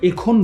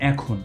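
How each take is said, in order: First: The first vowel sounds like 'e' in bed. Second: The first vowel sounds like 'a' in cat. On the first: The speaker calls it wrong. "আমরা এখন বলবো না" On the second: The speaker calls it right. "এটাকে আমরা বলবো এখন, অর্থাৎ এর উচ্চারণটা অ্যা হয়ে যাচ্ছে"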